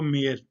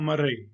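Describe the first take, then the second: First: It is said the local way, like mayor. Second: It is said American style, with an r sound. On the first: "इसको हमारे यहाँ गलत बोला जाता है, कहते हैं इसको मेयर" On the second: "जो अमेरिकन है वो इसको कहते हैं मरे"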